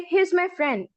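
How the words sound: The voice falls at the end, like a statement. It states that he is my friend. "Statement का समझ लेते हैं, जैसे he is my friend"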